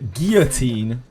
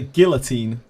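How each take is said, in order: First: It is said the American way, close to French. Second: It is said the British way, less like French. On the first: "Americans say guillotine, um, which is much closer to French" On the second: "the British say guillotine"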